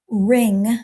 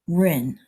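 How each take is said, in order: First: The word ends with its final G sound. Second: The word ends without the final G sound.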